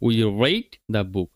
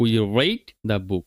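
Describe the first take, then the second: First: The verb 'read' sounds like 'red'. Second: The verb 'read' sounds like 'red'.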